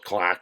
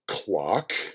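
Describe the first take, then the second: First: It is said in a Chicago accent. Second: It is said in a general American accent.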